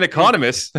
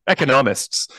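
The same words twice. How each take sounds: First: Economists said as ee-CON-omists, high and loud; stress on second syllable. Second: Said in the usual way. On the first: Real, not acted. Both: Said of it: "My emphasis was on the wrong syllable".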